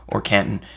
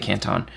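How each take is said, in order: First: It is pronounced the way Ohio says it. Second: It is pronounced the way the Chinese city is. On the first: It names the city in Ohio. "if you're in Ohio" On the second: It names the city in southern China. "But this one is in southern China, so we'll say Canton"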